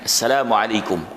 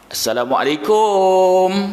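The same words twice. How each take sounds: First: Arab-style, with a short final 'kum'. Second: Malay-style, with a long final 'kum'.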